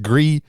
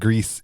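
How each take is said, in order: First: The word is said with a French pronunciation. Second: The word is said with a Spanish pronunciation. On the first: "It's pronounced Gris in French" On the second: "it's pronounced Greece in uh, Spanish"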